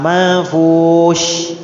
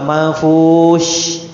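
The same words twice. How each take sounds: First: "manfush" sangat pelan, sya didesiskan seperti shh; sya berdesis. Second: "manfush" sangat pelan, akhir sya berdesis; sya yang jelas. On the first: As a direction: ucapkan "manfush" lambat, akhiri dengan desis. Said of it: "seperti mengisyaratkan jangan berisik". (sya seperti isyarat diam) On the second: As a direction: eja "manfush" lambat, tekan bunyi sya. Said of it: "huruf sya". (sya berdesis di akhir) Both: Shown as a demonstration.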